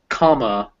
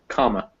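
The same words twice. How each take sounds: First: The final vowel is a full, stressed uh sound. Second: The final vowel is a weak, barely pronounced schwa. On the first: The speaker calls it wrong. "it's not comma" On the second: The speaker calls it right. "but comma"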